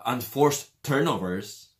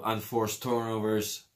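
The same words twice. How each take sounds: First: "Unforced turnovers" said slowly, every syllable spelled out clearly; slow, deliberate "Unforced turnovers", fixing a stumble; careful retake. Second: Said in the usual way. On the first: Shown as a demonstration. Fan vlogger correcting his own slip, slow and careful. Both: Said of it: "I can't say that word".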